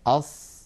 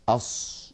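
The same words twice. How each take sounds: First: أص with relaxed lips, a clean emphatic whistling ṣ and no rounding; correct ṣād. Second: أص said with the lips pushed forward, a rounded, muffled unvoiced hiss; أص with the lips rounded, as some reciters wrongly do; wrong rounded ṣād. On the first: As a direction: say أص properly, lips uninvolved. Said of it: "هكذا لا تستعمل الشفتين". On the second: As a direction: imitate the common mistake, lips pursed on أص. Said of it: "هكذا يزمون الشفتين إلى الأمام". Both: Shown as a demonstration.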